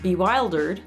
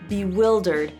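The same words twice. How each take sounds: First: The stressed vowel is not like 'it'. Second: The stressed vowel sounds like 'it'. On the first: The speaker calls it wrong. "let's say you pronounce it incorrectly" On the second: The speaker calls it right. "I have to pronounce I as in it"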